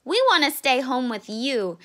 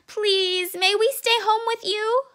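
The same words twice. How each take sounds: First: Said in the usual way. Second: High, begging little voice; pleading child. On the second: Acted. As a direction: plead like a scared little cub. Cub begs mother.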